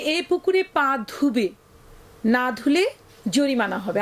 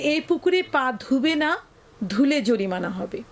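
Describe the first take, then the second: First: The pause comes right before 'na'. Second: The pause comes right after 'na'.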